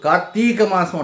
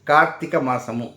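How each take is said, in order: First: The last word ends with an m sound. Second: The last word ends with an extra mu syllable. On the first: The speaker calls it wrong. "Karthika మాసం అంటారు" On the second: The speaker calls it right. "No, it is Karthika మాసము"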